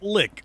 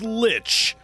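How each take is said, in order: First: The word ends with a k sound. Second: The word ends with a ch sound. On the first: Other people may say it this way. "Or is it Lick?" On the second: This is how the speaker says it. "that's how I pronounce it"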